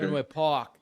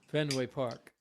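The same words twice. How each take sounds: First: It is said in a Boston accent. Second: It is said in a plain, everyday accent.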